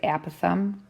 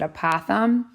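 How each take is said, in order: First: The first syllable sounds like the word app. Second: The first syllable does not sound like app. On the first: "I pronounce it apothem, like an app that you would have on your iPad" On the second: "people sometimes pronounce it apothem"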